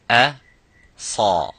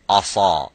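First: The opening vowel sounds light and thin. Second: The opening vowel sounds heavy and full-mouthed. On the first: The speaker calls it right. "you would say a sa sa" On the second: The speaker calls it wrong. "That's wrong, you don't say asa"

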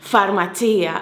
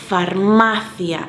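First: The stress falls on the syllable 'ci'. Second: The stress falls on the syllable 'ma'. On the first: This is the Italian way of saying it. The speaker calls it wrong. "Me parece que en italiano sería farmacia" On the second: This is the Spanish way of saying it. The speaker calls it right. "es llana, grave"

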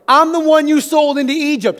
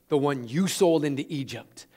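First: It is said triumphantly, with gloating force. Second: It is said calmly, without gloating.

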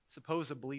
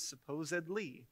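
First: The ending is said with a 'b' sound. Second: The ending is said with a 'd' sound. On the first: The speaker calls it wrong. "Supposedly is not a word" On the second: The speaker calls it right. "It's supposedly"

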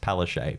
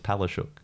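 First: The name is said a simplified way. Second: The name is said the traditional way. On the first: This is an easier version for locals. "for her, it's Palaszczuk because it's too difficult for Queenslanders" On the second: This is how others with the name say it. "the traditional pronunciation is Palaszczuk"

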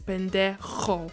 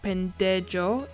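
First: The j is a rough sound from the throat. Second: The j is said like an English j. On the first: The speaker calls it right. "it's pendejo. So it's like a sound from the bottom of your throat" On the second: The speaker calls it wrong. "the J is not pronounced as J, like pendejo"

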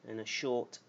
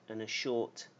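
No difference in how they are said.

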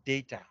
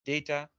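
No difference in how they are said.

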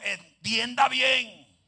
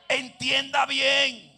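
First: It is said calmly, without extra force. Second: It is said loudly, with force and authority.

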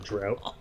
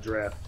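First: The word rhymes with 'out'. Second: The word rhymes with 'craft'. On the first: The speaker calls it wrong. "Instead of a drought" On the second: The speaker calls it right. "I'm actually going to pronounce it correctly and call it a draft now"

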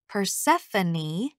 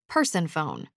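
First: It is said as one four-syllable name. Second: It sounds like the words person and phone. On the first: The speaker calls it right. "it's pronounced Persephone" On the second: The speaker calls it wrong. "Jeremy always says her name"

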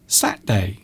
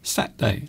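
First: The word is said with a syllable dropped. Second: The same.

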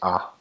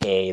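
First: The letter is said with an 'ah' vowel. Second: The letter is said with an 'ay' vowel. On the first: This is how speakers of the other language name the letter. "they say ah" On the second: This is how English speakers name the letter. "we say A"

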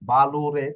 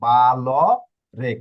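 First: The middle syllable is lu with a vowel. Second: The middle sound is a bare l. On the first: The speaker calls it wrong. "বা লু রে তাহলে ভুল হবে" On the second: The speaker calls it right. "এটা ল হবে শুধু"

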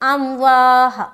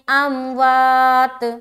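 First: The word ends with a soft h sound. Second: The word ends with a clear t sound. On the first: The speaker calls it wrong. "तो गलत हो गया ना।" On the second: The speaker calls it right. "तो यहाँ पर हम ता को पूरा पढ़ेंगे।"

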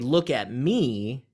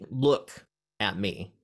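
First: The word 'me' is stressed. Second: The word 'look' is stressed. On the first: Look at me rather than anybody else. "that means don't look at anybody else, look at me" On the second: Use your eyes rather than another sense. "don't listen to me, or don't like whatever"

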